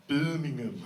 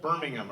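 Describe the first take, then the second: First: Attempted Brummie accent on "Birmingham"; mock Birmingham accent; local Birmingham accent. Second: Said in the usual way. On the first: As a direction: say "Birmingham" as Brummie locals would, vowels bent. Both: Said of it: "or as they call it".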